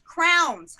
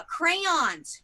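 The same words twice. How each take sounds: First: Crowns said like a princess crown, rhyming with down; crowns for crayons. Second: Crayons said slowly as kray-ons. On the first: Admitting her quirk, crayons said as crowns. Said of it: "I say crowns". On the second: Correcting herself, crayons said the proper way. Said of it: "I know the correct word is crayons". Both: Shown as a demonstration.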